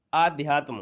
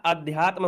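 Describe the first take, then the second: First: 아는 "आध्यात्म" with a long first "आ"; "आध्यात्म" read as the misspelt form, long aa at the start; wrong spelling said. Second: "अध्यात्म" with a short first "अ"; correct pronunciation. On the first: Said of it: "इसलिए गड़बड़ी है". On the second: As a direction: say "अध्यात्म" with a short clipped a at the start. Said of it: "तो भैया अध्यात्म होता है". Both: Shown as a demonstration.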